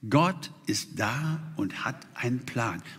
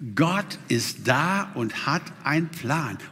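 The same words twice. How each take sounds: First: It is said hesitantly, without conviction. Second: It is said with strong conviction.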